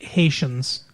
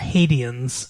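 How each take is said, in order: First: The word is pronounced the usual way. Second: The word is pronounced in an imitated, unusual way.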